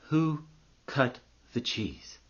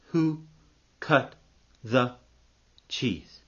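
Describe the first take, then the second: First: Slow, hushed and weighty; monk puts his profound question to a student, solemn and slow. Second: Each word set apart by a long pause; word-by-word repeat. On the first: Monk at the meditating student's ear, solemn slow question. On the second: Narrator repeats what the monk asked, word by word. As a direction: slowly space out WHO, CUT, THE, CHEESE. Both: Acted.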